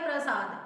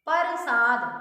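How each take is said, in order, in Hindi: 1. 'p' और 'r' मिलकर एक कसा हुआ गुच्छा बनाते हैं। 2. 'p' और 'r' के बीच एक स्वर डाला जाता है। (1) "प्र बोलना है इसको" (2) "कुछ लोग उसको बोलते हैं"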